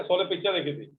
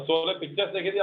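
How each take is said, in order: First: पिक्चर with no s at the end; wrong singular form. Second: पिक्चर्स closing on an audible s; final s sounded. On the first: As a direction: stop पिक्चर at the r, leaving off the s. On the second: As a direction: add a clear s to the end of पिक्चर्स. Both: Shown as a demonstration. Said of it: "पिक्चर गलत हो जाता है".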